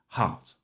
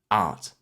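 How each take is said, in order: First: The word starts with an H sound. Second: The word starts without an H sound.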